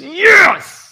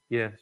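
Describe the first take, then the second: First: The word is said with excitement and passion. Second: The word is said flatly, without excitement. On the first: The speaker calls it right. "He is excited. He is passionate about this" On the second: The speaker calls it wrong. "I don't think Jesus said it this way"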